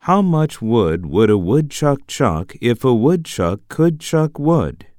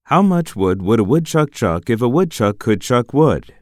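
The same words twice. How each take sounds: First: Each sound is said slowly and clearly. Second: It is said at natural, faster speed.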